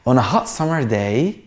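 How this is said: It is read expressively, with feeling. The speaker calls it right. "هنا انا حاسس الكلام"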